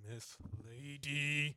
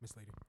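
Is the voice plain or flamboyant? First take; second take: flamboyant; plain. First: It is said in a flamboyant voice. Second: It is said in a less flamboyant voice.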